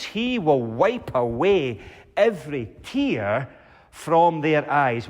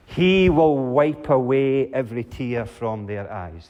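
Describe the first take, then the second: First: Slow, tender re-reading of the promise; savoring promise. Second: Solemn reading. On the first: The preacher dwells on his last promise, slow and tender. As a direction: linger over every word. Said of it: "What a promise". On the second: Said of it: "reads the promise aloud". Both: Shown as a demonstration.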